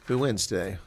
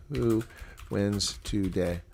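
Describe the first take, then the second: First: Said in the usual way. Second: Slow drawn-out poll question. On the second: Shown as a demonstration. Reading the poll question to viewers, slow and drawn out. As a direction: slowly stretch out "wins today". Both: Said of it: "do a poll on who will win".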